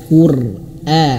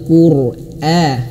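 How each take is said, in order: Both takes have the same delivery.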